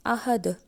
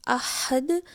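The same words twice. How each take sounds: First: Light "h" in अहद, no throat squeeze; chest ha. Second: अहद slowly with strong Arabic ح; slow, pharyngeal "h" in अहद; throaty ha. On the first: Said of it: "दो आँखों वाला हा". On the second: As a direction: stretch अहद, "h" squeezed mid-throat. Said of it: "हा का मतलब है अकेला". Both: Shown as a demonstration.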